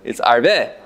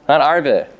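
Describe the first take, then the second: First: The stress is on the last syllable. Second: The stress is on the first syllable. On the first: It means I will increase. The speaker calls it right. "it's Milara" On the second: It means locusts. The speaker calls it wrong. "it's not Mila'el"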